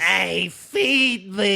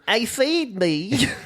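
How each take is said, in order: First: The put-on voice is much more obnoxious. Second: The put-on voice is mildly obnoxious.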